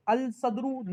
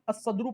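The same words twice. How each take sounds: First: الصدر said as "al-sadr", lam clearly sounded; الصدر with a full separate lam, not assimilated; الصدر misread as "al-sadru"; wrong reading. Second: الصدر said as "as-sadr", lam silent, sad doubled; الصدر with the lam swallowed into a doubled sad; الصدر sun-letter style, "assadr"; correct reading. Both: Shown as a demonstration. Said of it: "الصدر نہیں پڑھیں گے".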